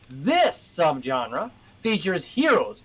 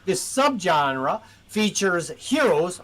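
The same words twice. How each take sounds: First: The word 'this' is strongly emphasized. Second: The word 'this' gets no special emphasis. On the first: The speaker calls it right. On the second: The speaker calls it wrong.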